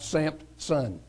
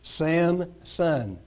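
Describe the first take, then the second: First: The name is said with a p sound. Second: The name is said without a p sound. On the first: The speaker calls it wrong. "if I put a P at the end of Samson" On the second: The speaker calls it right. "I noticed that it was Samson"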